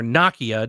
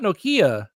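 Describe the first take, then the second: First: It is pronounced the British way. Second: It is pronounced the American way.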